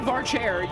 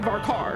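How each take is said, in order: First: The second word begins with a ch sound. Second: The second word begins with a k sound. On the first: The speaker calls it wrong. "you don't say Var chair" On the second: The speaker calls it right. "you say Var car"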